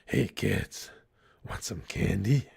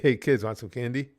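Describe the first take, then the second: First: It is said in a Batman voice. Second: It is said in his normal voice.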